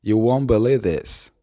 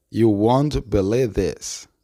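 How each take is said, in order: First: Said in the usual way. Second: Slow, word-by-word "You won't believe this"; slowed-down model. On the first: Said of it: "la oración completa se pronuncia". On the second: Shown as a demonstration. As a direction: draw out each word for learners. Teacher slows the model sentence. (frase modelo dicha despacio)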